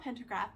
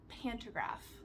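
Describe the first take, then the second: First: The first syllable sounds like 'pen'. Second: The first syllable sounds like 'pan'. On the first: The speaker calls it wrong. "it's not pentagraph" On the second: The speaker calls it right. "I think that's the right word"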